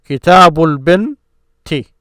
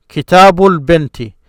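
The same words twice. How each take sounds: First: Kitabul binti slow and deliberate; teacher models the phrase; slow careful model. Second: Kitabul binti run together smoothly; whole phrase blended for learners; joined as one word. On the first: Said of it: "So this is one section". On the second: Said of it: "when I say this as one word". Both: Shown as a demonstration.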